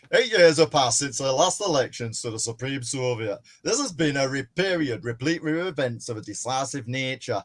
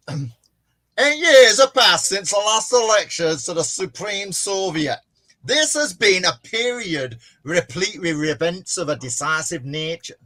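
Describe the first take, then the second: First: Natural, understated northern English reading; speech read in a lightly done northern English accent. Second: Loud, high, hammed-up northern English speech; oratory in an uncertain northern English accent. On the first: Acted. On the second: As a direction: declaim it in exaggerated northern English. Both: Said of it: "I'll do the northern one".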